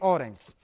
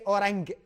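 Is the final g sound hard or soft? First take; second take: soft; hard. First: The final g is soft, as in judge. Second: The final g is hard, as in go. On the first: The speaker calls it right. "the letter G here has to be soft" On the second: The speaker calls it wrong. "don't say orang"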